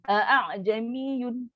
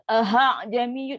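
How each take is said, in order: First: A full glottal catch comes before 'jamiyun'. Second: An audible h sound comes before 'jamiyun'. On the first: The original full hamzah is kept instead of softened. "sebutan yang salah" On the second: The hamzah is turned into a different letter. "itu dah beri ha pula"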